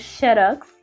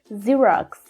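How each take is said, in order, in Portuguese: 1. A palavra começa com um som de 'sh'. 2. A palavra começa com um som de 'z'. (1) "essa pronúncia do X na língua portuguesa" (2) "no inglês, a gente tem esse sonzinho de Z mesmo"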